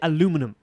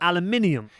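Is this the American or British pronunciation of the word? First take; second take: American; British. First: It is said the American way. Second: It is said the British way. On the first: "You say aluminum" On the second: "They say"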